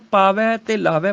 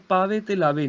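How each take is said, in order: First: ਪਾਵੈ and ਲਾਵੈ ending in open ai. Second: ਪਾਵੇ and ਲਾਵੇ ending in close e; wrong vowels shown. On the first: Teacher showing proper recitation, ਪਾਵੈ, ਲਾਵੈ with ai. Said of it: "ਪਾਠ ਉਚਾਰਨ ਕਰਨਾ ਹੈ". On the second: Teacher showing the misreading, ਪਾਵੇ, ਲਾਵੇ with close e. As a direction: close both final vowels to ay. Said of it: "ਪਾਵੇ ਤੇ ਲਾਵੇ ਨਹੀਂ". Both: Shown as a demonstration.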